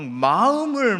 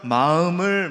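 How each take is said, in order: First: It is said in a forceful Gyeongsang dialect. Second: It is said in plain standard Seoul speech. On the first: The speaker calls it right. "경상도 사투리가 굉장히 파워풀하죠" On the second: The speaker calls it wrong. "서울말은 그게 안 되잖아요"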